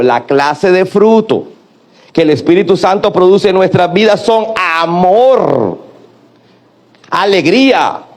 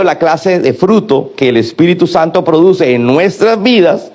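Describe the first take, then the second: First: Drawn out for the church to echo "la clase de fruto"; slow call-and-response phrasing; slow, spelled-out repeat line. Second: Said in the usual way. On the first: Shown as a demonstration. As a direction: lead the congregation, word by word. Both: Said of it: "diga conmigo".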